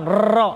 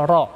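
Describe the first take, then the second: First: Ro with a long rolling trill of the tongue; "ro" with many rapid tongue vibrations, the incorrect form; trilled r, wrong way. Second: "ro" said with a single light flap of the r, no trill; single light tap r. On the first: Teacher showing the wrong trilled ro, many vibrations. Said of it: "Bukan banyak getaran". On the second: Teacher demonstrating the correct light ro, one tap. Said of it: "Yang betul adalah ro". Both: Shown as a demonstration.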